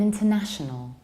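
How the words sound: The T after the N is clearly pronounced. "in British accents, we pronounce N and T in a very clear"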